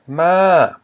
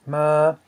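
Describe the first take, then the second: First: Ma arched high then falling; long ma that swoops down from high. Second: Ma held high and level. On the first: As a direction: say ma loud, high and dropping. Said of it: "it's a falling tone". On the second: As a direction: say ma on a steady high pitch. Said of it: "same as the word for to come". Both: Shown as a demonstration.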